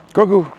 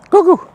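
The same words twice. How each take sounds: First: High call across the yard; calling the dog. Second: Much higher, louder shout for the dog. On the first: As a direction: call the dog's name out. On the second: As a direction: yell the name across the field. Calling the dog outside. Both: Real, not acted.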